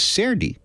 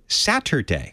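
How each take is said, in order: First: The word has a casual, dialect-style pronunciation. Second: The word has a standard, careful pronunciation. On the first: This is how the family spoke at home. "at home it was" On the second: This is how it was taught at school. "At school it was"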